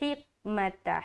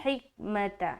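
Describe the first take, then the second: No difference in how they are said.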